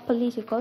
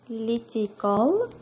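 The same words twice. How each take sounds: First: Said in the usual way. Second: "Political" very slow and drawn out; divided into syllables. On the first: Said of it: "Start with the first word". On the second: Shown as a demonstration. Teacher dividing the first word for students, slow syllable-by-syllable "Political". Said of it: "We divide the word into syllables".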